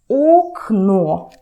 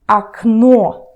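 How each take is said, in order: First: The first vowel sounds like a full 'o'. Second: The first vowel sounds like 'a'. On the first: "You write окно" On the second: "but you say окно"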